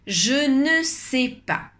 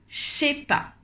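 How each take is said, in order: First: Every word is pronounced, including 'ne'. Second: Said very fast, the words squeezed together.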